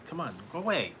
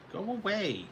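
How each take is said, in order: First: Said in the usual way. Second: High pet-talk voice. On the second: Real, not acted. Shooing the pet Tassie away, high sing-song voice. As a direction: go away pitched much higher, sing-song.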